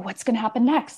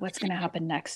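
First: The voice sounds eager and excited. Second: The voice sounds worried and dreading. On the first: The speaker looks forward to what comes. "genuine excitement" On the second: The speaker fears what comes. "the opposite energy ... it's the negativity"

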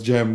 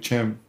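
First: The name begins with a soft 'j' sound. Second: The name begins with a 'ch' sound. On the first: The speaker calls it right. "So it's Gem" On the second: The speaker calls it wrong. "A lot of people call me Chem"

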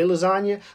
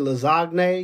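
First: The G in the word is silent. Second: The G in the word is pronounced. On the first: "I don't say lasagna" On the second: "So the G in lasagne would not be silent"

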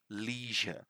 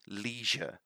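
First: It is said with an American pronunciation. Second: It is said with an American pronunciation.

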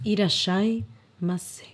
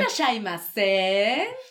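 First: It is said in a plain Japanese style. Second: It is said in a lively Peruvian style.

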